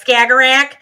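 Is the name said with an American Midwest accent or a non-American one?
Midwest. The name is said with an American Midwest accent. The speaker calls it wrong. "but I'm like Skagerrak"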